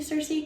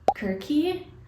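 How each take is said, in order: First: The name begins with a soft s sound. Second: The name begins with a hard k sound. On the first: This is the modern everyday pronunciation. "in modern day language you'd say Cersei" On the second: This is the supposedly correct original pronunciation. "you're actually supposed to say it as Kirky"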